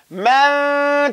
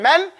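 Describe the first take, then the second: First: The final n is stretched out as a nasal hum. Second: The final n is fully and clearly pronounced. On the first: The speaker calls it right. "it's just stretching it out, not really p- pronouncing it" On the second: The speaker calls it wrong. "Instead of saying man"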